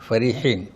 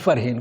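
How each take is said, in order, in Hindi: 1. यह शब्द तीन अक्षरों में बोला जाता है। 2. यह शब्द दो अक्षरों में बोला जाता है। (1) "वो असल में क्या है, फरीहीन" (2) "मगर के हमारे करते हैं फरहीन"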